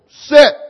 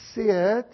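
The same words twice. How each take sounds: First: It is said firmly, as a sharp command. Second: It is said softly, as a mild request.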